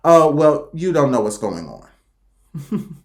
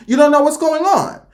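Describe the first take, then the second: First: Low, slow and trailing away; dismissive low drawl; muttered dismissal. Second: High, lilting repeat after a chuckle; singsong high retort; high-pitched dismissal. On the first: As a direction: let it sink low and drag it out. Imagined dismissive reaction to critics. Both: Retold or imitated.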